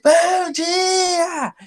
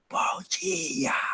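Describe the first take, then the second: First: It is said very loudly. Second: It is said very softly.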